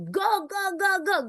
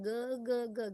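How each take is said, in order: First: It is said loudly with high energy. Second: It is said flatly with low energy.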